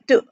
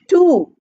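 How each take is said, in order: First: The word is unstressed with a weak vowel. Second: The word is stressed with a full vowel. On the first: The speaker calls it right. "I said to" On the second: The speaker calls it wrong. "I did not say to"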